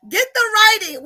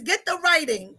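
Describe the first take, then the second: First: Higher and louder, pressing the point; calling again to Nika Grace, higher and louder; louder repeat. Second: Said in the usual way. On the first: Real, not acted. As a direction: say it again with more push.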